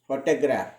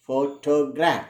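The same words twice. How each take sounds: First: Said in the usual way. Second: "photograph" slowly, syllable by syllable, stressing "pho". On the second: Shown as a demonstration. Teacher showing learners the word stress, "photograph" slowed, stress on "pho". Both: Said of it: "the stress is on syllable pho".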